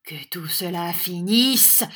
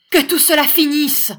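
First: Slow, incredulous repeat, rising at the end; mild raging echo. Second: High, loud order; commanding shout. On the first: Schoolmaster repeating the young teacher's order, mild raging echo. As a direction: echo the order slowly, rage held in. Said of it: "avec un cri de rage". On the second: Young teacher ordering the schoolmaster to stop, commanding shout. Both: A narrator's reading.

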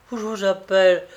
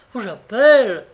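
First: Louder warning that she will call; a first raised cry of warning; raised threat. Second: Higher and much louder, near a shout; a louder repeat, almost crying out; shouted threat. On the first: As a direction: warn him, voice rising. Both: A narrator's reading.

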